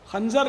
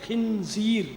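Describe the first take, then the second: First: It is said like khanjar, with an a vowel. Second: It is said like khinzeer, with i and ee vowels. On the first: The speaker calls it wrong. "आमतौर पर लोग इसको खंजर या खंजर बोलते हैं। खंजर नहीं है" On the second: The speaker calls it right.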